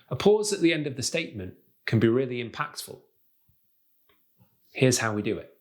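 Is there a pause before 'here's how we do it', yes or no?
yes. A marked pause comes before the last phrase.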